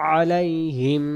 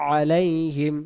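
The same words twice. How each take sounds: Both takes have the same delivery.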